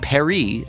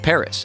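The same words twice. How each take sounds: First: It is said with a French pronunciation. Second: It is said with an English pronunciation.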